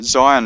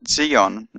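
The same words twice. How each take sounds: First: It is pronounced the usual English way. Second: It is pronounced the Hebrew way.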